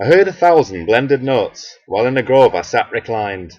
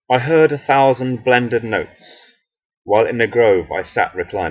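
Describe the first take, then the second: First: It is read in a northern English accent. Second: It is read in a neutral accent.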